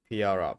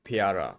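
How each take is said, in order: No difference in how they are said.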